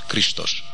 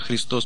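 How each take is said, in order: First: The word is said with 'sh' sounds. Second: The word is said with 's' sounds. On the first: The speaker calls it right. "Криштош, Криштош" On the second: The speaker calls it wrong. "оно не звучит как Христос, потому что буквы «С» там нету"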